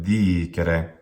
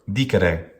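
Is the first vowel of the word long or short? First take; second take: long; short. First: The first vowel is held long. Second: The first vowel is held short. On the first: The speaker calls it right. "It's dicere with a long duration" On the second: The speaker calls it wrong. "make the first syllable short. ... That's wrong"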